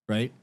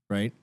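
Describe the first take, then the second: The two takes are said the same way.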